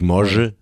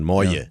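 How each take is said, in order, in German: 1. Der mittlere Konsonant ist ein harter G-Laut. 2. Der mittlere Konsonant ist ein weicher Y-Laut. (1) "nicht Morge" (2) "sondern Moje"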